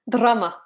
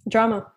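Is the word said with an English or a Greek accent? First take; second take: Greek; English. First: Said in a Greek accent with a rolled R. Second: Said in an English accent with a plain R. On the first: "I like how all you do is roll your R's" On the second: "but you pronounce it with an English accent"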